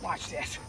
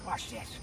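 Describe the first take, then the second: First: Soft, low-pitched "Watch this."; quiet. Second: "Watch this." whispered with no voice. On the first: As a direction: mutter "Watch this." softly to yourself. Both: Real, not acted.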